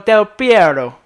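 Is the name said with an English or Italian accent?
Italian. The name is said with an Italian accent. The speaker is showing off foreign pronunciation. The speaker calls it wrong. "when he's like pronounced like an Italian name or something"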